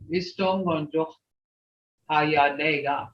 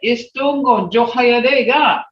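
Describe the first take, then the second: First: The phrase is said flat, without tones. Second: The phrase is said with clear tones. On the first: The speaker calls it wrong. "You can't just say" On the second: The speaker calls it right. "Hear those tones"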